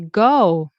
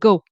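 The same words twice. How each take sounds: First: The vowel is drawn out and wavy. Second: The vowel is short and flat. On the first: "you can make it more wavy" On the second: "Instead of saying go"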